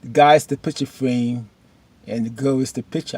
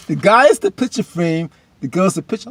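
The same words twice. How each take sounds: First: Said in the usual way. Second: Higher, louder, relishing the line; hyped repeat. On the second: Retold or imitated. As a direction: repeat it like a great punchline.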